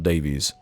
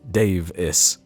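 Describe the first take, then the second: First: The name is said like 'Davies'. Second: The name is said like 'Dave-is'. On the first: The speaker calls it wrong. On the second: The speaker calls it right. "It's very much [name] Davis, like Dave-is"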